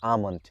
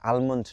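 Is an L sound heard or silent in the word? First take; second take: silent; heard. First: No L sound is heard before the M. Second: An L sound is heard before the M. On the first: The speaker calls it right. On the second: The speaker calls it wrong. "আর আলমন্ড না"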